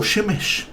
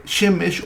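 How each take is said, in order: First: Shemesh stressed on the last syllable, sheMESH; final-syllable stress. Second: SHEmesh, stressed on the first syllable of Shemesh. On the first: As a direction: lean slowly on the "mesh" of Shemesh. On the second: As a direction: say Shemesh with the weight on "She". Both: Shown as a demonstration. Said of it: "el acento recae siempre en la última sílaba".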